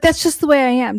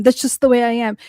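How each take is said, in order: First: Higher, louder snooty mimicry of Anna; mocking Anna. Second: Said in the usual way. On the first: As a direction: parrot her smug excuse, mocking. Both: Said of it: "She's like".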